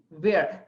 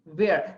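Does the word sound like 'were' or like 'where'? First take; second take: where; where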